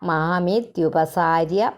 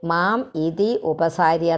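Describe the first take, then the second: First: The words are run together as one word. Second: The words are said as separate words.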